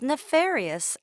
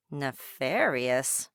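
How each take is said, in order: First: Nefarious said higher and louder with a falling end; the parent stressing nefarious with a firm fall; complaining parent. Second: Nefarious said slowly and lower, puzzled; turning the odd word Nefarious over slowly; puzzled wondering. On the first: Parent complaining about a child, nefarious higher and falling. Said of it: "eavesdrop on a parent". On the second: Dolores puzzling over the overheard word, slow and lower. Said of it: "she wondered". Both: A narrator's reading.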